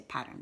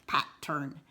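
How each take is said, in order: First: Said in the usual way. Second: "pattern" said as pat-turn with a hard break between beats; teacher chops "pattern" into two separate beats; split into syllables. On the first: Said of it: "but we just say pattern". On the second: Shown as a demonstration. Teacher shows the class the chopped version, pat-turn. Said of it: "don't go pattern".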